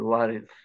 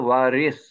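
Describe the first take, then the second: First: The last consonant is a soft 'th' sound. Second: The last consonant is a plain 's' sound. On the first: The speaker calls it right. "সা, সা, আল ওয়ারিস" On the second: The speaker calls it wrong. "সিন থাকলে হতো ওয়ারিস"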